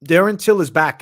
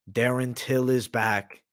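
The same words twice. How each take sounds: First: Louder, higher hyped shout of the name; hype announcement. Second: Slow, drawn-out reveal; slow teasing announcement. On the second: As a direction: tease the name slowly. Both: Acted.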